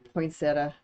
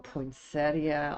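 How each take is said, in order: First: It ends without the 'ee' sound: poin-set-a. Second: It ends with an extra 'ee' sound: poin-set-ee-a. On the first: The speaker calls it right. "you don't say the I" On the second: The speaker calls it wrong. "I'm saying that wrong"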